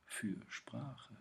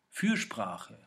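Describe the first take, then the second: First: „Fürsprache“ viel leiser, mit Pause nach „Für“; leise zerlegtes Wort. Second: „Fürsprache“ als ein Wort, fest betont; in einem Zug gesprochen. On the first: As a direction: nimm „Fürsprache“ zurück und trenne Für – Sprache. Wortwiederholung, leise zerlegte Fassung. („Fürsprache“ leise, in zwei Teilen) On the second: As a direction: sag „Fürsprache“ deutlich am Stück. Wortwiederholung im Gedichtvortrag, erste Fassung. („Fürsprache“ fest und zusammenhängend) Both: Shown as a demonstration.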